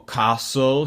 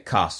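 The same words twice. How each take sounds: First: The word is said in an American accent. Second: The word is said in a British accent. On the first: The speaker calls it wrong. "you said it like an American" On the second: The speaker calls it right. "we need to say castle"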